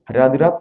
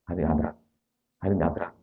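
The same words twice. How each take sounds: First: Rushed loud. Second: Slow with pauses. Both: Shown as a demonstration. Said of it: "berhenti aja".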